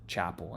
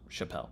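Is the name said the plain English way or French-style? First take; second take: plain English; French-style. First: It is said like the English word chapel. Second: It is said French-style, stressed on the end. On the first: The speaker calls it wrong. "they left me a comment that said Chapel" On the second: The speaker calls it right. "I think this is pronounced Chappelle"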